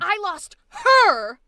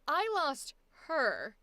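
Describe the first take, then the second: First: The line is loud and punched with energy. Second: The line is soft and drops in energy. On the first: The speaker calls it right. "Throw your energy into it. Punch it" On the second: The speaker calls it wrong. "You're going, I lost her. Stop going down"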